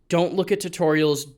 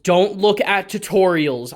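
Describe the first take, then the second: First: Said in the usual way. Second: Slow and louder, "look" hit hard; emphatic repeat. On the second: Shown as a demonstration. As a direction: drive "look" home slowly. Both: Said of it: "repeated for emphasis".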